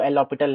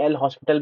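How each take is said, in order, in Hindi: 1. यह नाम बिना s की आवाज़ के बोला जाता है। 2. यह नाम s की आवाज़ के साथ बोला जाता है। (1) "करेक्ट प्रोनाउंसिएशन जो है वो एल ऑपिटल है" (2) "कोई कोई एल हॉस्पिटल भी बोल देता है"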